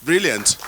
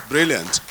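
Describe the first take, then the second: No difference in how they are said.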